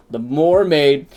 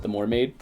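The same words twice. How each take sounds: First: MERMAID said as "more-maid", loud and raised; booming proclamation. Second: Said in the usual way. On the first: Pretend. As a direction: belt out "mermaid" as "more-maid", like announcing a title. Booms out the pun nickname.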